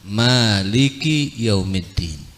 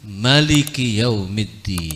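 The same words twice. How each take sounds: First: The first vowel of maliki is long. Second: The first vowel of maliki is short. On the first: "dibaca dengan alif mimnya" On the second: "dibaca tanpa alif"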